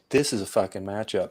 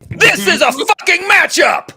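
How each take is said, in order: First: It is said with little enthusiasm. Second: It is said with lots of enthusiasm.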